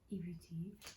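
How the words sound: It is said in a low, muffled voice.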